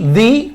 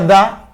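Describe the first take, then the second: First: The vowel is long and high, like 'dee'. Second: The vowel is short and neutral, like 'duh'. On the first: The next word starts with a vowel sound. "di cuando es con vocal" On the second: The next word starts with a consonant sound. "se pronuncia da cuando el sonido que le sigue es consonante"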